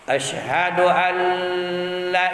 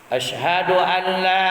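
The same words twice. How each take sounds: First: The doubled l is held and the vowel is short. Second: The vowel after l is held for six beats. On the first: The speaker calls it wrong. "Salah total itu" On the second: The speaker calls it right. "la itu itu panjangnya enam harkat"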